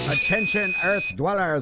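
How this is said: It is said in a 1950s space alien voice.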